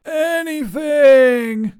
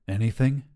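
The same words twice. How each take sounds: First: Very high, loud, drawn-out ANYTHING; desperate wail. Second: Said in the usual way. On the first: A narrator's reading. Wizard begging to escape the sander, wailing.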